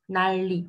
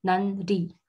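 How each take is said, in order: First: "난리" as nalli, with a long double l; correct assimilation. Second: "난리" as nan-li, n kept before the l; unassimilated reading. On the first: Teacher confirming what was just said, clear correct demo. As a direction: say "난리" with the n turned into l. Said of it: "j'ai pas dit 난리". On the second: Teacher showing what was not said, literal demo. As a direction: say "난리" in two separate syllables, n then l. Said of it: "j'ai pas dit 난리. C'est dur à dire". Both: Shown as a demonstration.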